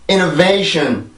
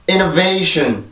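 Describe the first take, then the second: Both takes have the same delivery.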